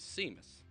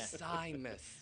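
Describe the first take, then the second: First: The name is said the Portuguese way. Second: The name is said the English way. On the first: This is how it was said growing up. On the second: This avoids a joke other people made.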